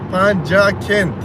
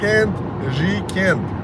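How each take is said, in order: First: The name is said with Tajik vowels. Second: The name is said with Russian vowels. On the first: "по-таджики" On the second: "по-русски"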